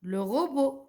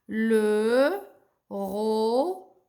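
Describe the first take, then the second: First: Said in the usual way. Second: "robot" stretched into ro... bo; long separate sounds in "Le robot", silent T; syllable-by-syllable reading. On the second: Shown as a demonstration. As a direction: sound it out slowly for beginners. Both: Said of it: "Le T, je le prononce pas".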